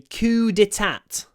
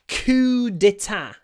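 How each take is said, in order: First: The final T is pronounced. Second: The final T is silent.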